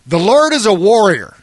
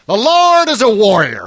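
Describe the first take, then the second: First: It is read in the speaker's own accent. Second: It is read in a Southern American accent.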